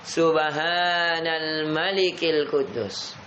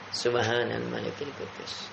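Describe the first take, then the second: First: It is said with a raised, louder voice. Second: It is said at a normal, quieter volume.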